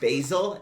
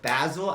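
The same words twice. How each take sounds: First: It has the usual English pronunciation. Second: It is pronounced the way Koreans say it. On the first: "it's pronounced basil in English" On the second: "I always call it basil accidentally"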